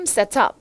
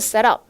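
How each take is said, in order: First: It is said with a British pronunciation. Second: It is said with an American pronunciation.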